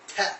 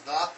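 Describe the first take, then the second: First: It starts with a plain t sound. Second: It starts with a th sound. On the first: The speaker calls it wrong. "pronounce it as te" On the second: The speaker calls it right. "actually pronounce it as the"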